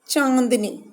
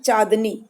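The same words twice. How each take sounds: First: The first vowel is nasalized, sounding through the nose. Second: The first vowel is plain, without nasal sound. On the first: "जब चंद्र बिंदु है तो ये है" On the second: "अगर हम चंद्र बिंदु हटा दें तो ये हो जाएगा"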